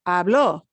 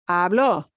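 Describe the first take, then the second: The two takes are said the same way.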